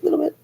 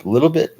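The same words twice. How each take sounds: First: "little bit" jumped way up into a tiny falsetto squeak; squeaky little voice. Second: Said in the usual way. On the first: Shown as a demonstration. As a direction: shrink "little bit" into a high comic squeak. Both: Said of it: "that does bother me a little".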